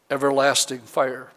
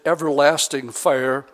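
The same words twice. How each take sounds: First: "everlasting fire" set apart after a pause, with weight on "everlasting"; emphasis on everlasting. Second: Said in the usual way. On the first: Shown as a demonstration. Preacher singles out the word for the congregation, emphasis on "everlasting". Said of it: "I want to emphasize the word".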